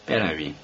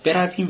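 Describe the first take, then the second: First: Said in the usual way. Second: Higher, firm, rising insistence; doctor insisting they go; insistent. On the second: A narrator's reading. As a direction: press him to leave now. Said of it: "پزشک با اصرار گفت".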